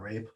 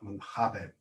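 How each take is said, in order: First: It is said as one syllable, like English. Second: It is said with a Brazilian Portuguese accent. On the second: "Or the Brazilians pronounce it"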